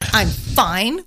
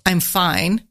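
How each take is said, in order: First: It sounds upset, meaning not fine. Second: It sounds mildly bothered, partly fine.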